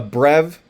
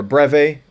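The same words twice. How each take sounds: First: Breve said as "brev"; one-syllable pronunciation. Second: Breve said as "BREV-ay"; two-syllable pronunciation. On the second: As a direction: breve with its final E sounded as AY. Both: Shown as a demonstration. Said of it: "or a breve".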